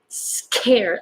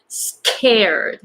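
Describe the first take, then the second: First: The K is released with a strong puff. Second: The same.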